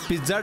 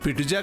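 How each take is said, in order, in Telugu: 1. మధ్య హల్లులు అచ్చు లేకుండా కలిసి ఉంటాయి. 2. అదనపు అచ్చు మధ్య హల్లులను విడదీస్తుంది. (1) "పిజ్జా డెలివరీ" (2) "పిటుజా కాదురా"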